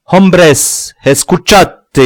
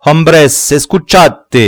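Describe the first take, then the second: First: Much louder and higher Spanish cry. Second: Calling out. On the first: Lobie cries out to the rebels, loud. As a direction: shout to the whole crowd. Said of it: "s'écria Lobie". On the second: Sorcerer calls the crowd to listen, loud. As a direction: summon the crowd. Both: A narrator's reading.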